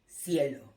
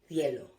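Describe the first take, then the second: First: The c sounds like the s in see. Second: The c sounds like the th in thin. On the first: This is how it is said in Latin America. "with the phonetic sound of S" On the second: This is how it is said in Spain. "the phonetic sound in Spain of theta"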